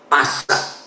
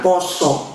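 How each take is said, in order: First: Both vowels are pronounced as an open A. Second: Both vowels are pronounced as an O. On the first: The speaker calls it wrong. "tulisannya P A S A" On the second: The speaker calls it right. "karena orang Jawa kalau nulis A itu bacanya O ya"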